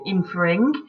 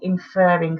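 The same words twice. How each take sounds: First: The stress is on the first syllable. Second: The stress is on the second syllable. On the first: The speaker calls it wrong. "Don't say inferring" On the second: The speaker calls it right. "you say inferring, so you double the R"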